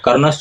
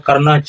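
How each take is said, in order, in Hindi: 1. शब्द 'shcha' की ध्वनि पर खत्म होता है। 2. शब्द सादी 'cha' ध्वनि पर खत्म होता है। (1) "कर्णश्च उच्चारण नहीं होगा" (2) "उच्चारण क्या होगा?"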